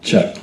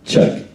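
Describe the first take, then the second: First: The voice sounds bright and crisp, with extra treble. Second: The voice sounds full and robust, with more midrange. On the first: The speaker calls it wrong. "I need a little more treble" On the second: The speaker calls it right. "if I turn it up, you can hear more of my my speaking voice, a little more robust"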